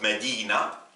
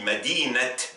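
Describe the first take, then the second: First: The word ends in an open 'a' vowel. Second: The word ends in a 't' sound. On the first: The word stands alone. "il se prononce A" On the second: Another noun follows the word. "le tamarbuta se prononce te"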